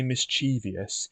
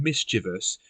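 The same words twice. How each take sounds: First: "mischievous" said as mis-CHEE-vee-us; four syllables, mis-CHEE-vee-us; extra-syllable mispronunciation. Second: "mischievous" said as MIS-chiv-us; MIS-chiv-us, three syllables; three-syllable pronunciation. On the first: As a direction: stress CHEE and add an ee before the end of "mischievous". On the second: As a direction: stress MIS in "mischievous", no ee before the end. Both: Shown as a demonstration. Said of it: "there isn't an I between the V and the O".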